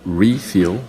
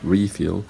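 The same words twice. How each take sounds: First: The stress is on the first syllable. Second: The same.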